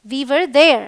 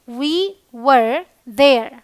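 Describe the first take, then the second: First: Said in the usual way. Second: Very slow, words pulled apart; slow teaching demo. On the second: Shown as a demonstration. Teacher modelling we were there for Hindi students, very slow. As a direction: say it at a crawl for learners. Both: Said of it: "हम वहाँ थे".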